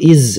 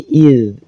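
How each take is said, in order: First: The syllable ends with a z sound. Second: The syllable ends with a d sound. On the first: The speaker calls it wrong. "atau iz, bukan" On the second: The speaker calls it right. "tapi id, id di ujung lidah"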